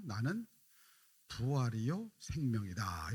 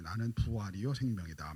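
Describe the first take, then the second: First: 나는 부활이요 생명이다 drawn out slowly with a pause after 나는; slow weighty declaration of 나는 부활이요 생명이다; slow solemn proclamation. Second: Said in the usual way. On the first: Shown as a demonstration. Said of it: "이렇게 말씀하셔요". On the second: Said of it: "말씀하시는 것입니다".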